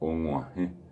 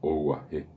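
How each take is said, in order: First: The g sound is nasal. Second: The g sound is plain and oral. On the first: The speaker calls it right. "yo puedo decir Onguaje" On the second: The speaker calls it wrong. "si no utilizo la nasalidad o no sé pronunciar la nasalidad, eh, la palabra saldría como"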